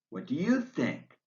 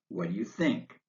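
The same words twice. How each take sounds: First: The word you gets special emphasis. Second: No word gets special emphasis.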